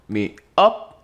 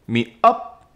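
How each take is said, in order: Both takes have the same delivery.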